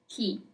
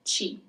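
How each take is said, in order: First: It begins with a hard 'k' sound. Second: It begins with a soft 'ch' sound. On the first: The speaker calls it wrong. "It's never ki" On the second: The speaker calls it right. "Chi is always read as chi"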